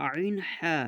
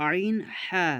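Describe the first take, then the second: No difference in how they are said.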